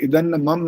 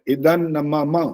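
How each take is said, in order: First: The 'na' syllable is dropped before 'mama'. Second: The 'na' syllable is clearly said before 'mama'. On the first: The speaker calls it wrong. "इदन मम नहीं होता" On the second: The speaker calls it right. "अब होंठ खुले हुए, ये फर्क होता है"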